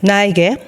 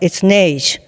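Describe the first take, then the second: First: The word is pronounced as a German word. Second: The word is pronounced as a French word. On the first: The word means slope. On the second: The word means snow.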